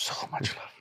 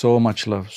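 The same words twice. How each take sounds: First: Breathy whispered echo of so much love. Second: Said in the usual way. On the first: Shown as a demonstration. Repeating so much love to her cohost, whispered.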